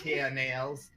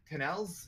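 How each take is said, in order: First: Canals said kʰæneɪlz, the usual way; plain. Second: Canals said with a flat Canadian a, kʰənɛlz; Canadian accent. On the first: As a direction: Canals with an open a vowel. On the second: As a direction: Canals with a short eh vowel. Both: Shown as a demonstration. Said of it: "that was my Canadian accent coming in there".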